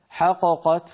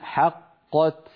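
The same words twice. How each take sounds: First: The first qaf bounces, giving two separate qafs. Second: The two qafs merge into one doubled qaf. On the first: The speaker calls it wrong. "لو قلنا حققت حققت فانفك الإدغام وصار كأننا نطقنا بقافين منفكتين" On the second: The speaker calls it right. "لابد أن نقول حققت"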